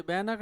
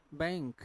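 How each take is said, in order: First: बैनक said as two syllables, bai-nak, with a clear n; wrong split pronunciation. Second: बैंक with ng flowing straight into k, one syllable; correct nasal pronunciation. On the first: Teacher showing class the wrong way, split bai-nak. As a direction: demo the mistake: बैनक with n and k split apart. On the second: Teacher giving class the right form, nasal ng. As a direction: say बैंक as baink, the nasal running into the k. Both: Shown as a demonstration. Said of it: "ये बैनक नहीं है".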